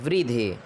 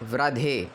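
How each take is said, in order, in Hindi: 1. पहला अक्षर 'vri' जैसा सुनाई देता है। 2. पहला अक्षर 'vra' जैसा सुनाई देता है। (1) "रा के साथ छोटी की मात्रा उच्चारण होती है" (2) "कई लोग कहते हैं ... वृद्धे नहीं बोलना है"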